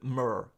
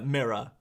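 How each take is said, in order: First: It is said like 'myrrh', in an American accent. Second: It is said in the speaker's usual accent.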